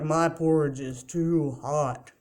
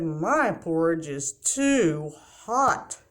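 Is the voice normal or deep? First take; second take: deep; normal. First: It is said in a deep voice. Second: It is said in a normal voice.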